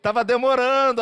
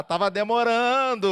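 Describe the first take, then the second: First: Louder, higher repeat; eager God. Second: Eager God. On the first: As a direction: stress the relief harder. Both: Acted. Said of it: "Aí Deus".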